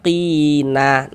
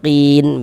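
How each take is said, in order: First: The word ends with an added final vowel. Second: The word ends on a silent-vowel n sound. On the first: The speaker calls it wrong. "Jangan dibaca qina" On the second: The speaker calls it right. "tapi dibaca qin begitu"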